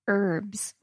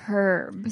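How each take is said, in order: First: It is said in an American accent. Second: It is said in a British accent.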